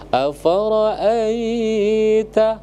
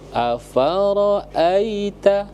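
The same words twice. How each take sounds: First: The vowel before the final syllable is drawn out. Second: The vowel before the final syllable is short. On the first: The speaker calls it wrong. "ada yang baca afara'aita, tidak boleh" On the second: The speaker calls it right. "a apakah panjang? Tidak"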